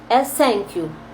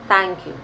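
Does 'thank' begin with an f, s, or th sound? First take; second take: s; th. First: The first sound is an s sound. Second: The first sound is th, tongue between teeth. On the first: The speaker calls it wrong. "é um S" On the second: The speaker calls it right. "quanto mais fanho melhor"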